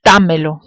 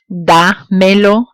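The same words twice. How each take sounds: First: Dámelo quickly joined, weight on DÁ; dámelo as one word, stressed DÁ-me-lo; original verb stress. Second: Dámelo slowly in pieces, da, then melo; slow Dámelo with a gap after da, rising; pronouns held apart. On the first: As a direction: run dámelo together, punching the first syllable. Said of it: "maintain the original stress of the verb". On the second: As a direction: split Dámelo, ending upward. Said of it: "when pronouns are added to a verb form". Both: Shown as a demonstration.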